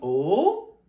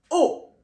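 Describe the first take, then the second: First: The pitch rises upward. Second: The pitch falls downward. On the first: "Le son, il monte. Tout simplement, il monte" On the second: "Tout simplement, descend"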